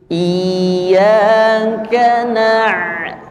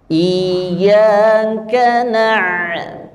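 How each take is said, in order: No difference in how they are said.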